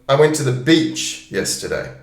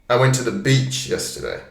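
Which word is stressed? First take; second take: beach; beach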